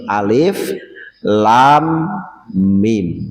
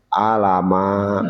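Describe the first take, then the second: First: Each letter is read by its full name. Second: The letters are run together as one word. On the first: The speaker calls it right. "yang dibacakan itu nama hurufnya ya. Bukan harokatnya" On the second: The speaker calls it wrong. "anak-anak sekarang gak salah baca kadang. Alamak katanya"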